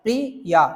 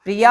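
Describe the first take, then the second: First: Said in the usual way. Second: प्रिया with the final आ held longer; lengthened vowel. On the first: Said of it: "आपने क्या बोला?". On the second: Shown as a demonstration. Teacher stretching प्रिया to show a pluta vowel. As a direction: stretch the end of प्रिया like calling out. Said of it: "स्वर को क्या कर देंगे? थोड़ा बड़ा कर देंगे".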